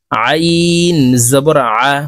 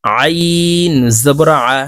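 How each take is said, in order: First: আইন pressed from mid-throat, slow; throat-pressed ain. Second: আইন pressed from mid-throat, slow; slow, pressed throat sound on আইন জবর আ; throat-pressed ain. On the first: Teacher repeating for students: pressed, slow আইন. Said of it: "কারণ আইনের মাখরাজ হলকের মধ্যখান থেকে হবে". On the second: Teacher showing throat sound: slow, pressed আইন. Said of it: "আইন হরফ হলকের মধ্যখান থেকে চাপ দিয়ে উচ্চারণ". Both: Shown as a demonstration.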